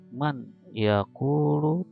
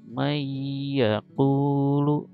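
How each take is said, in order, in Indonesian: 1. Bunyi n diucapkan dengan jelas sebelum y. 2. Bunyi n menyatu menjadi y ganda yang berdengung. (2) "langsung ke ya dan didengungkan"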